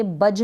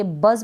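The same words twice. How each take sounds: First: बज said "budge", ending in j; wrong j sound. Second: बज said "buzz", ending in z; correct z sound. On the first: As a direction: close बज on j, not z. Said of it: "बज नहीं पढ़ेंगे". (बज के अंत में ज की ध्वनि) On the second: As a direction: close बज on a buzzing z. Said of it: "बज पढ़ेंगे". (बज के अंत में ज़ की ध्वनि) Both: Shown as a demonstration.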